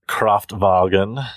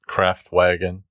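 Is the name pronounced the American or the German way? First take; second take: German; American. First: The name is said with a German-style pronunciation. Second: The name is said with an American-style pronunciation.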